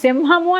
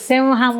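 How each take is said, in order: First: The middle nasal ignores the following h sound. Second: The middle nasal adapts to the following h sound. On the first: The speaker calls it wrong. "సింహము అని పలకూడదు" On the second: The speaker calls it right. "సింహము అని పలకాలి"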